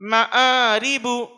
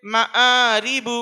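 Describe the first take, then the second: No difference in how they are said.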